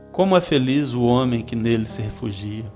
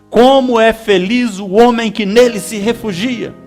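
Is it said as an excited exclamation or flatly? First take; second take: flatly; exclamation. First: It is said flatly, without exclamation. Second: It is said as an excited exclamation.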